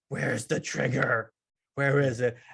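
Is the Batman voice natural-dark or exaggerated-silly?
natural-dark. It is said in a plain dark voice.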